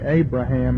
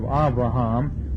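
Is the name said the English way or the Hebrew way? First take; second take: English; Hebrew. First: It is said with the English pronunciation. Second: It is said with the Hebrew pronunciation. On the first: The speaker calls it wrong. "We say Abraham" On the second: The speaker calls it right. "instead of Avraham"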